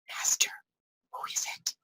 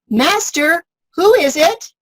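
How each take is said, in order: First: It is said in a quiet whisper. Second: It is said aloud in a normal voice.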